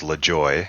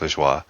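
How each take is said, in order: First: The name is said the home-country way. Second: The name is said the French way. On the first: "if I said it in my home country, it was LaJoy" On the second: "The French, of course, say it like you did, like Lajoie"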